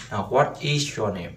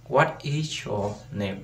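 First: Said in the usual way. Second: Slow careful model question; đọc chậm, rõ từng từ; slow, spelled-out question. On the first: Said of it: "Sẽ viết thế này". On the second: Shown as a demonstration. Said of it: "Câu hỏi nha".

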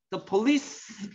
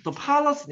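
First: "the police" with the stress on -lice, said slowly. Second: "the policy" with the stress on po-. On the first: Teacher contrasting police with policy, stress on the end. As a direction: lean on the second syllable of "police". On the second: Teacher contrasting policy with police, stress on the front. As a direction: punch the first syllable of "policy". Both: Shown as a demonstration. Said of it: "액센트가 다르단 말이야".

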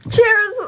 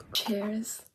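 First: High, loud shouted toast; excited cheers. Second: Quiet cheers. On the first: Excited toast, then repeated softly. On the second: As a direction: say the toast softly, at normal pitch. Same toast repeated in low voice. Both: Real, not acted.

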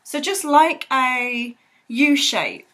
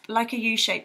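First: Slow, drawn-out "like a U shape"; slow demo. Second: Said in the usual way. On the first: Shown as a demonstration. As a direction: stretch "so just like a U shape" out slowly as you draw it.

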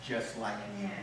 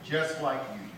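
First: Soft, quiet aside. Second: Just hit firmly, falling at the end; stress on Just. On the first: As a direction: drop low and soft, rising gently at the end. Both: Shown as a demonstration.

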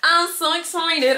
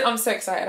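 First: Higher, louder, slow giddy squeal; excited squeal. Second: Said in the usual way. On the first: Real, not acted. Vlogger before the interview, squealing excitement.

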